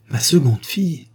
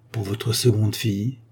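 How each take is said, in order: First: Ma seconde fille? raised, fille rising in disbelief; surpris, en s'écriant; startled cry. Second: Said in the usual way. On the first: A narrator's reading. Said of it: "s'écria sir Colfax".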